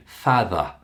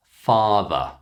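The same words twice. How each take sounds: First: "father" with a short a as in cat; wrong short a. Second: "father" with a long open ah. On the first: Teacher imitates students' mistake, short a in "father". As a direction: say "father" with a front, cat-like vowel. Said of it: "We don't pronounce those words in that way". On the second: Teacher models word for practice, long ah in "father". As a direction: stretch the first vowel of "father" to ah. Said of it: "It's the long ah sound". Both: Shown as a demonstration.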